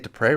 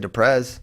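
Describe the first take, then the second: First: The name ends on a vowel sound. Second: The name ends with a z sound. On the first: The speaker calls it right. "I get Dupre right" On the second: The speaker calls it wrong. "I don't say Duprez like some of you rubes"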